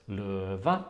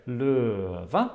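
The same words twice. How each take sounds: First: LØVE with LØ held low and level, VE raised; low tone, then high. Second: LØVE with a long falling LØ, then high VE; falling tone, then higher. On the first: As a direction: say løve starting low with no glide, ending high. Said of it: "has the stressed syllable low". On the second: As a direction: let LØ in løve slide down before VE jumps up. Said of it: "the first one has this falling". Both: Shown as a demonstration.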